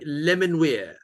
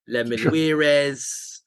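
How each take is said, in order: First: The name ends with a single 'weir' sound. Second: The name ends with an extra 'weires' syllable. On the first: "is how I pronounce it" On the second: "that could be quite nice, but it's a bit Spanish"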